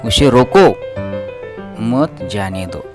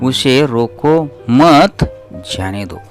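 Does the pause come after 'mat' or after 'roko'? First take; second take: after roko; after mat. First: The pause comes right after 'roko'. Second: The pause comes right after 'mat'. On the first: The person must be stopped, not allowed to go. "यानी कि उसे हम रुकवाना है और उसे जाने को नहीं देना है। नकारार्थी" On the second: The person should not be stopped but allowed to go. "यानी कि सकारात्मक वाक्य"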